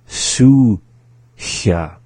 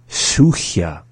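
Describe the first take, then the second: First: It is said slowly. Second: It is said at normal speed.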